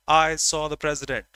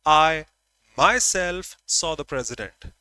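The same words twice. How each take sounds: First: Said in the usual way. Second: "I myself" punched loud, then pausing; emphatic subject. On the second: Shown as a demonstration. Teacher showing the class emphatic pronouns, stressing "I myself". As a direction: lean hard on "I myself". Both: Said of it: "So I am emphasizing the subject".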